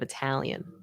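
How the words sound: The middle vowel sounds like a. It is the usual pronunciation elsewhere. "instead of Italian"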